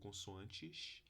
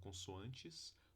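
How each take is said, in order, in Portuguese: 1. A palavra termina com um som de chiado, como o x. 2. A palavra termina com um s sibilante.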